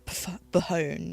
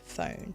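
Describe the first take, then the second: First: An extra letter sound is pronounced at the start. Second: No extra letter sound is pronounced at the start. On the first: The speaker calls it wrong. "You don't go phone" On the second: The speaker calls it right. "You go phone"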